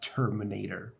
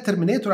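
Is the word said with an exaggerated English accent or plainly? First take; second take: exaggerated; plainly. First: It is said with an exaggerated English accent. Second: It is said plainly with local Arabic sounds. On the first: "تتعوج فيها شويه زي ما انا تعوجت فيها كده" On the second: "ممكن تقول عليها ترمينيتور عادي خالص"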